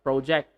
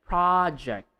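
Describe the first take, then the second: First: Pro-JECT with an oh vowel; long-o project. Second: PRAH-ject, stressed open first vowel; short-o project. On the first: Teacher shows what not to say, long-o project. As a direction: project with long o in the first syllable. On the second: Teacher gives the right form, PRAH-ject. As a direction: Project falling away from PRAH. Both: Shown as a demonstration. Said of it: "not project".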